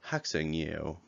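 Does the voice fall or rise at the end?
falls. The voice falls at the end.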